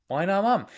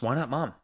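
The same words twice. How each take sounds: First: Why not mom? said much higher with a falling lift on mom; a higher, playful second read of Why not mom?; surprised repeat. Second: Said in the usual way. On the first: Real, not acted. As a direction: echo the question in amused surprise. Repeats the viewer's question.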